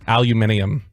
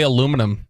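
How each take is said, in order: First: It is said with a British pronunciation. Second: It is said with an American pronunciation. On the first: "You know what they say?" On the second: "They don't say aluminum in the U K"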